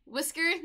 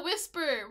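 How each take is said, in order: First: Calls the pet "Whisker", a k sound in the middle; "Whisker" with a hard k, rising as a question; wrong name said. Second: "whisper" with a clear p sound, no k; corrected name. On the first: Calling her cat the wrong name: "Whisker" with a k. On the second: Correcting herself to her cat: "whisper" with a p. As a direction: says "whisper" firmly, p not k. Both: Real, not acted. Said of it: "I keep saying whisker".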